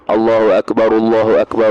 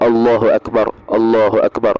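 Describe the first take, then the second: First: The phrases run together without breaks between them. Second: Each phrase is set apart by a short break. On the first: The speaker calls it wrong. "Bersambung-sambung gini" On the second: The speaker calls it right. "secara berpisah-pisah"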